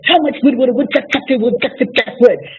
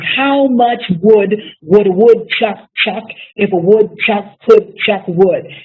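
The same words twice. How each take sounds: First: It is said fast. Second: It is said slowly.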